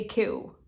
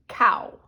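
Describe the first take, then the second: First: "Q" said softly as the single sound "kyoo" for cow; Ottawa Valley cow. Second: Cow said plainly as "cow", the narrator's own way; own pronunciation of cow. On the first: Retold or imitated. Imitating Uncle Leo's Ottawa Valley "Q" for cow. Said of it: "Q is the Ottawa Valley speak for cow". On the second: Shown as a demonstration. Her own everyday "cow" before the Ottawa Valley version. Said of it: "I say".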